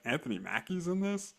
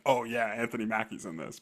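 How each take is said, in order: First: It sounds doubtful and questioning. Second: It sounds approving and satisfied.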